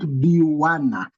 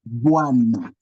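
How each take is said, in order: First: The word has three syllables, bi-wa-na. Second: The word has two syllables, bwa-na. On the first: The speaker calls it wrong. "not Biwana. Don't say Biwana" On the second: The speaker calls it right. "You pronounce this as Bua. So it becomes Buana"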